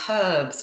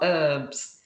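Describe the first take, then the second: First: The word begins with an audible h sound. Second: The word begins with a vowel, h silent. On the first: "because it's got an H in it. That's why I say herbs" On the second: "not herbs"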